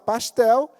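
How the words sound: It is said in a Carioca accent.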